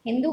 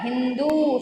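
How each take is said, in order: First: Teacher voices the wrong हिंदू to pupils; wrong form said. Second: Teacher gives the correct हिंदू to pupils; correct form said. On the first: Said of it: "हिंदू गलत होता है". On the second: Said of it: "हिंदू सही होता है". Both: Shown as a demonstration.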